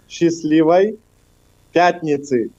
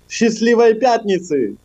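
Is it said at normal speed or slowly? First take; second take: slowly; normal speed. First: It is said slowly. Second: It is said at normal speed.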